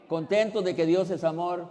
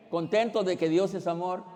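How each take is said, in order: Both takes have the same delivery.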